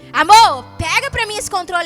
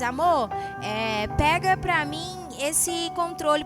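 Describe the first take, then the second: First: The voice is harsh and irritated. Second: The voice is gentle and polite. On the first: An impatient, quarrelsome demand. The speaker calls it wrong. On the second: A kind, loving request. The speaker calls it right.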